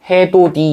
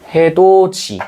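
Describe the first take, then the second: First: The last consonant is a plain 'd' sound. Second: The last consonant is a 'j' sound. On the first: "해도 디 이렇게 되겠죠. 처음에는" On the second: "해도 지로 발음되겠지"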